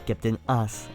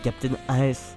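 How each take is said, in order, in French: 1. AS se dit d'un seul coup, en un seul mot. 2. AS s'épelle en deux lettres séparées. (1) "pas Captain As" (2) "normalement c'est des initiales"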